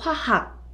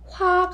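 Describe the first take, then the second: First: The h sound in the second syllable is clear. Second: The h sound in the second syllable is dropped. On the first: The speaker calls it right. "정확하게 발음해 주시면 너무 좋습니다" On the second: The speaker calls it wrong. "화학 아니고"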